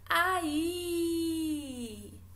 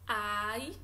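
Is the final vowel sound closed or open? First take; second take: open; closed. First: The final vowel has an open sound. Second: The final vowel has a plain, closed sound.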